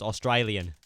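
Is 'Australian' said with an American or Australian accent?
Australian. It is said with an Australian accent. The speaker calls it right. "It's Australian. There you go"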